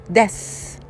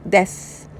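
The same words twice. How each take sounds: The two takes are said the same way.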